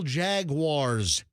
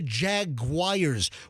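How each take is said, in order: First: The second syllable sounds like 'wars'. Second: The second syllable sounds like 'wires'. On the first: The speaker calls it right. "It's the Jacksonville Jaguars" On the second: The speaker calls it wrong. "It's not the Jaguars. Where the hell are you getting a U I R E S"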